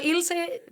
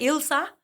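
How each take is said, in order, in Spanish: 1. El nombre termina con una vocal 'eh'. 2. El nombre termina con una vocal 'ah'. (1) "puedo ser Ilse" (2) "ser Ilsa, eh, si es con gringos"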